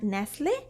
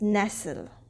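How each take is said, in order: First: It is said like the brand name. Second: It is said like the English word. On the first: It names the brand. The speaker calls it wrong. "It's not Nestle" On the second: It means to settle comfortably against something. The speaker calls it right. "it's nestle"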